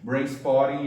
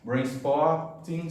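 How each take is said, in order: First: It is said with a New York accent. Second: It is said with a standard pronunciation. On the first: "é o sotaque uh, nova-iorquino" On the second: "seria a pronúncia mais uh, uh, correta"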